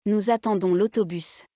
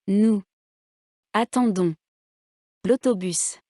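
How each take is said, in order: First: Nous attendons l'autobus linked without pauses, one final accent; one phonetic word. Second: Nous, attendons, l'autobus each stressed alone, long pauses between; word by word. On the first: Teacher showing students a phonetic word, Nous attendons l'autobus in one breath. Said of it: "contiennent un seul mot prononcé". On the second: Teacher showing written words one at a time, word by word. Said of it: "Faites attention à l'accent tonique". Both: Shown as a demonstration.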